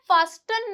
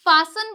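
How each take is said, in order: First: "फास्टन" with the t pronounced; "फास्टन" with a hard t after s; mistaken sounded T. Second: "फासन" with no t; "फासन" with s straight into n; silent T. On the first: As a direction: say "फास्टन" as faas-tun. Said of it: "फास्टन नहीं बोलते". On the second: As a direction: say "फासन" as faa-sun. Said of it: "फासन बोलते हैं". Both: Shown as a demonstration.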